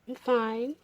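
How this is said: It is said in a soft, romantic tone.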